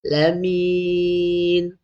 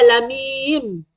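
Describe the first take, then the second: First: "Lamin" held long, ending on a clear n; correct ending. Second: "lamim" drawn out, lips closed on a final m; wrong ending. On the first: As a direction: stretch "Lamin" and close on n. (sebut "Lamin", mati dengan nun) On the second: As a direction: end "lamim" on m instead of n. (sebut "lamim", mati dengan mim) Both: Shown as a demonstration. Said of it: "Okey, bukan lamim".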